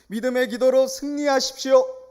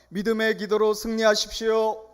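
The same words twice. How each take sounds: First: The word 승리 is strongly emphasized. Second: The word 승리 gets no special emphasis.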